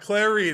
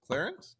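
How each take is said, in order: First: The name ends with an n sound. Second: The name ends with an s sound. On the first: The speaker calls it right. "It's Clarine" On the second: The speaker calls it wrong. "you put an extra C in there"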